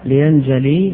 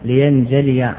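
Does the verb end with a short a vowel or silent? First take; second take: silent; a. First: The final ya is silent, with no vowel. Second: The final ya carries a short a vowel. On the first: The form is altered to fit the poetic meter. "وسكن الياء لاستقامة الوزن" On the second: This is the regular grammatical form. "إلا"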